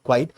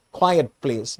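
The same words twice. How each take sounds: First: "quite" said as one syllable, kwyte. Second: "quiet" said as two syllables, kwy-et. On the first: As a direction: run "quite" together as a single kwyte. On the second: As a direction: sound both vowels in "quiet", kwy-et. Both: Shown as a demonstration. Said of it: "not quite".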